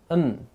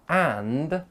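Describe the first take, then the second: First: The d is dropped and the vowel is schwa. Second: All three sounds are said, with a full vowel. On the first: "So and becomes n" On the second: "the word and has got three sounds"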